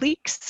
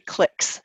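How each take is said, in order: First: It is said the Canadian way. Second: It is said the American way.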